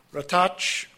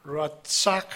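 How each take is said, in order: First: "Ratach" said as ra-TACH; mispronounced Hebrew word. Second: "Ratzak" with ts in the middle and a final k; careful two-syllable "Ratzak", closing on k; corrected Hebrew pronunciation. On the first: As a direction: say "Ratach" as a slip, closing on ch. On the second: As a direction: say "Ratzak" carefully as rat-SAK. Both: Real, not acted. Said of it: "I'm sorry".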